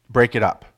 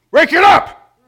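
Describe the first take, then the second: First: Said in the usual way. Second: Sudden high, loud "Break it up!"; shouted command. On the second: Shown as a demonstration. Pastor breaking up two people fighting, shouting. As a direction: bellow it to stop a fight. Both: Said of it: "here, I'll, you know".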